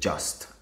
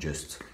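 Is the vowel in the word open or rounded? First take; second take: open; rounded. First: The vowel is an open, unrounded 'uh' sound. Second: The vowel is a rounded, French-like 'u' sound. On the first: The speaker calls it right. "Le U ici se lit A" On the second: The speaker calls it wrong. "et non"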